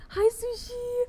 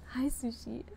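First: Much higher, louder squeal of hello; high excited squeak; squealed greeting. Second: Said in the usual way. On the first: Real, not acted. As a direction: squeal the name like you're thrilled to see her.

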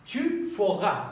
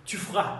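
First: "Tu feras" with "feras" in two syllables, fe-ra; full pronunciation. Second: "Tu feras" with "feras" as one syllable, fra; contracted pronunciation. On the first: Teacher models the full form, "feras" drawn out as fe-ra. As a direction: sound the middle vowel of "feras". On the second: Teacher models the short form, "feras" squeezed into fra. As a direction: drop the middle vowel of "feras". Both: Shown as a demonstration. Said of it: "به این صورت".

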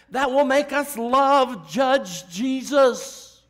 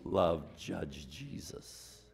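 First: High, loud and slow; preacher's loud slow climax; loud slow emphasis. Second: Low, soft, very slow; quiet slow repeat after the climax; soft slow echo. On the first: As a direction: drive it home, word by word. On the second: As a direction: hush it back to the people. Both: Real, not acted.

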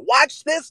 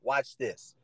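First: High rising call of watch this. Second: Quiet aside. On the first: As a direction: toss watch this up high and bright. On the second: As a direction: mutter watch this under the breath. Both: Acted. Same phrase said twice, contrasted.

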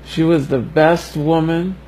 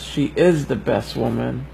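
First: "was" said with a rising lift, past tense; stress on was. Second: "is" lifted with a rising tune, said a bit softer; stress on is. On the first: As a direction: lean on the word "was" before he corrects it. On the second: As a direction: correct himself by leaning on "is". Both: Real, not acted. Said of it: "I don't wanna say was".

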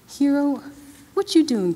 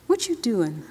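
First: Higher and louder, calling his name across the room; raised, urgent repeat of the question; alarmed call. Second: Said in the usual way. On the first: A narrator's reading. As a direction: call out to him, worried now. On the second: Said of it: "Hero, what you doing, kid".

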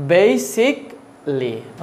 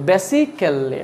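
First: Basically very slowly as "BAY-sik ... lee"; British-style pronunciation. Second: Basically as "be-si-KEL-li", short first vowel; local pronunciation. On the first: Teacher modelling the new way, slow "bay-sik-lee". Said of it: "আজকে থেকে কি বলবো?". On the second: Teacher quoting learners' usual way, "besi-kel-li". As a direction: sound all four syllables of basically, "besikelli". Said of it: "আমরা কি বলি?". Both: Shown as a demonstration.

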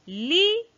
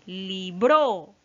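First: "libro" with LI high, loud and drawn out; correct stress on LI. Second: "libro" with the last syllable BRO loud and stretched; wrong stress on BRO. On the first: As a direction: demonstrate "libro" stressed on the first syllable. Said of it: "sí se escucha bien". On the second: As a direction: punch BRO at the end of "libro". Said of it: "a ver si le damos aquí". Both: Shown as a demonstration.

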